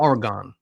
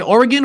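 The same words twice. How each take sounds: First: Oregon ending in a full "gone"; alternative pronunciation. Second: Said in the usual way. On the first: Shown as a demonstration. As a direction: say Oregon with an open, stressed-sounding "-gon". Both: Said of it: "Is it Oregon or Oregon?".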